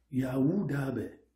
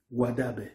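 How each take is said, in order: First: "Yaouda Bé" said slowly with the first syllable "Ya" fully sounded; full pronunciation. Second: "Wada Bé" with the initial syllable clipped away; truncated pronunciation. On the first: Teacher sounding out the full original name slowly. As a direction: give "Yaouda Bé" all its syllables, slow and clear. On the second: Teacher showing the everyday clipped form of the name. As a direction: shorten it to "Wada Bé" the way people usually say it. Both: Shown as a demonstration. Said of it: "tend à escamoter le mot en tronquant la syllabe".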